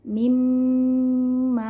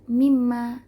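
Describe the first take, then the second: First: The nasal m sound is held long. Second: The nasal m sound is kept short. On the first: The speaker calls it right. "Dengan digunnahkan, ditahan. Mimma gitu" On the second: The speaker calls it wrong. "bukan sekedar baca mimma"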